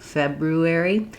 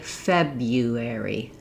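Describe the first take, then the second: First: The first R is pronounced as an R. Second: The first R is replaced by a Y. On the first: "that difficult combination" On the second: "change this first R to a Y sound"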